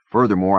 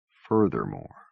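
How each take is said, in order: First: Loud, self-important Furthermore; pompous. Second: Furthermore said low and flat in scorn; mocking. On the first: Acted. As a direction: puff up the word Furthermore like a know-it-all. Nerd's pompous word, later mocked. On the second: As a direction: echo Furthermore with a dry sneer. Norton repeats it scornfully.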